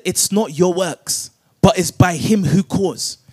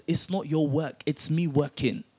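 First: Said in the usual way. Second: Much softer, lower, intimate; quiet voice of God. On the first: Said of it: "I just said". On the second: Acted. Preacher voicing God to the doubting listener, hushed. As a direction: drop right down as if God speaks close. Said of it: "God says".

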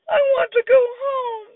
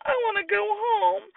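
First: High, louder wailing plea; a toddler bawling to go home; crying wail. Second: Put-on a toddler whimpering to leave; tearful whimper. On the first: Acted. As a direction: wail it as the tears break. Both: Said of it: "Sam cried".

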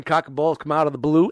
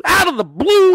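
First: Said in the usual way. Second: Loud, high hyped-up yell; shouting. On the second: Acted. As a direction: belt it out like a hype man.

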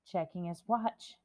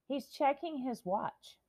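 First: Said in the usual way. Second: "checking" said high and slow, full of outrage; slow outraged "He's checking his watch"; indignant stress. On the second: Real, not acted. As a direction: lean hard and slow on "checking" in disbelief. Repeats Biden watch remark.

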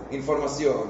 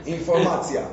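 First: Said in the usual way. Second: Informacia with a mock Hebrew -tzia ending, a bit higher and louder; teasing fake-Hebrew informacia; joke Hebrew ending. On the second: Shown as a demonstration. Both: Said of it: "Agregás tzia".

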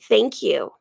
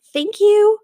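First: "Thank you" dropped low and dry after the big one; low, deadpan "Thank you"; dry repeated thanks. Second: Loud, high, exaggerated thank you; big theatrical "Thank you" pitched up; mock grateful thanks. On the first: Acted. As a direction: mutter "Thank you" lower, as an aside. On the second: Mock thanks to Dad and Douglas.

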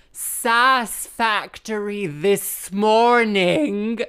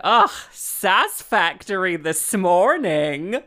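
First: Very slow, loud, higher-pitched repeat; repeated for unhearing listener. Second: Loud, slow, exasperated sass; eye-rolling retort. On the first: Musician repeats her jibe to the vicar, loud and exaggerated. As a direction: stretch out every word loudly as if to someone hard of hearing. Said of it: "I didn't hear you". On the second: Musician answers the patronizing vicar, sassy and exasperated. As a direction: throw it back with an audible eye-roll. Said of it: "I rolled my eyes and said". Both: Retold or imitated.

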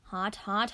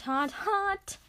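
First: Said in the usual way. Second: Yelped. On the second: Acted. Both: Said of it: "I yelped".

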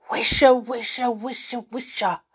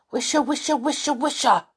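First: Loud, rustling stage whisper of trees. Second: Higher, insistent loud tree rustle; loud rustling trees. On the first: Trees whisper to the children, loud whisper. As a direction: whisper it loudly, like leaves rustling. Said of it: "whispered the trees loudly". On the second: Trees urge the children to listen, loudly. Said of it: "said the trees loudly". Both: A narrator's reading.

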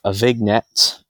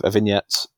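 First: "vignette" said as vig-net, hard g sounded; mispronounced vignette. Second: "vignette" said as vin-yet, silent g; correct pronunciation. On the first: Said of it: "What did I say?". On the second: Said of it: "consonant heavy". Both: Real, not acted.

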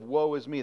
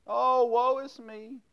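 First: Said in the usual way. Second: Much higher, slow, hammed-up wail of Oh, woe is me; dramatic woe is me. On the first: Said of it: "the same kind of whining". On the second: Shown as a demonstration. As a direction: play the whiny child for laughs.

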